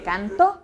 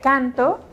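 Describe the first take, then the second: First: "canto" stressed on the final TO; stress on final syllable. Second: "canto" stressed on CAN, the first syllable. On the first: Teacher contrasting two verb forms for students, final-syllable stress on "canto". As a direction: say "canto" as can-TÓ, landing on the last syllable. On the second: Teacher contrasting two verb forms for students, first-syllable stress on "canto". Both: Shown as a demonstration. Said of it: "No es lo mismo, por ejemplo".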